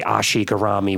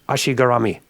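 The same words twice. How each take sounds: First: It is said with a heavy Brooklyn accent. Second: It is said with a Japanese pronunciation. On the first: The speaker calls it wrong. "They don't say ashigarami with a heavy Brooklyn accent" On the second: The speaker calls it right. "That's how they say it in Japanese"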